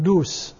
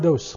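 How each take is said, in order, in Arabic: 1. الحركة الأولى في الاسم هي u. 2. الحركة الأولى في الاسم ليست u.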